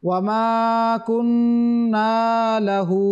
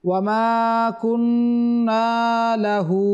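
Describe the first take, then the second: No difference in how they are said.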